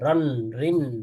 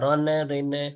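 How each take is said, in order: First: Each syllable ends on a held nasal, no vowel. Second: Each syllable ends with an extra released vowel. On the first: The speaker calls it right. "চাপ দিয়ে ধরতে হবে, বাউন্স ছাড়া" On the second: The speaker calls it wrong. "রনে রিনে নে বলা যাবে না"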